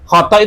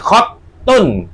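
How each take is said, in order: First: The t sound is short and single. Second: The t sound is held and doubled. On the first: The speaker calls it wrong. "Khotok itu tanpa tasdid" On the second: The speaker calls it right. "Tasdid, tak toknya tasdid"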